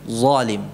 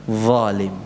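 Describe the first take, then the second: The two takes are said the same way.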